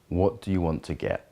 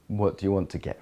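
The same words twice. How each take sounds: First: The voice sounds steady and grounded. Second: The voice sounds soft and receptive. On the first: "an earthy way would be something like" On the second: "A watery way would be, ... More receptive"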